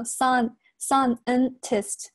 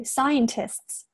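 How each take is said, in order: First: "scientist" slowly as "san-en-tist", losing the diphthong; drawn-out wrong "scientist" with a flattened first vowel; mispronunciation demo. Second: "scientists" slowly, starting with "sigh"; correct diphthong. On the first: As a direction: say "sun" for the start of "scientist", as a mistake. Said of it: "不要读成sun". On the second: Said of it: "不对，scientists". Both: Shown as a demonstration.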